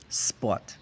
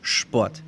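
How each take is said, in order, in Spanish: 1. La palabra empieza con un sonido s normal. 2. La palabra empieza con un sonido sh. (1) "ahí tienen un acento donde no aplican esta regla" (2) "casi todo Alemania, Austria, Suiza dirían Sport"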